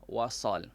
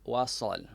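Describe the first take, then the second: The two takes are said the same way.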